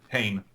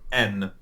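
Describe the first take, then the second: First: It sounds like the start of English 'heinous'. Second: It is said with standard French pronunciation. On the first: The speaker calls it wrong. "we read it out incorrectly in French" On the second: The speaker calls it right. "the proper French pronunciation of the word"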